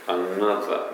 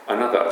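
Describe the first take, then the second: First: Another with the n held long, an-na-ther; lengthened n in Another. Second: Another said a-na-za with one short n; Japanese-style Another. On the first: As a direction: Another saying the n in both syllables. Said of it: "Nがちょっと長いんですよ". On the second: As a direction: Another with the n said only once. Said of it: "Anotherじゃなくてね". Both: Shown as a demonstration.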